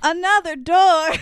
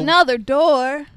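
First: Slow, higher-pitched teasing call; exaggerated echo. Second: Slow, drawn-out interjection; teasing echo. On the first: Listener interrupting the recap, higher drawn-out teasing echo. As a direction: stretch it out and push the pitch up. Repeats it again, more exaggerated. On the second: Pretend. Listener interrupting the recap, drawn-out teasing echo. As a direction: stretch it out to tease the storyteller.

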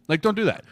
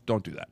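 First: "don't" pushed higher and louder; emphatic repeat. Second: Said in the usual way. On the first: Real, not acted. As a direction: hit "don't" hard the second time.

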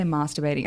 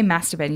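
First: "masturbating" with a long ah, as in father; softer "masturbating", first vowel drawn back to ah; imitated long-a pronunciation. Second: "masturbating" with a short a, as in cat; flat-vowelled "mass" at the start of "masturbating"; short-a pronunciation. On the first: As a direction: say "masturbating" starting like "mahs", imitating a friend. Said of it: "you say masturbating". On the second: Shown as a demonstration. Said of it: "I say masturbating, you say masturbating".

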